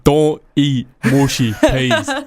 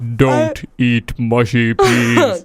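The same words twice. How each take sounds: First: Said at ordinary pitch in a Dublin-like accent. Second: Said in a very deep, low voice. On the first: "It's like a Dublin accent" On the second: "I think it should be a really deep voice"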